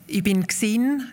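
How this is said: The Prättigau form is used, ending in n.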